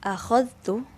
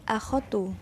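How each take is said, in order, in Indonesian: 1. Bunyi 'dh' muncul sebelum 't'. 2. Bunyi 'dh' dihilangkan sebelum 't'. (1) "alif, hamzah, kha, zal dan ta" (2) "huruf zal dihilangkan"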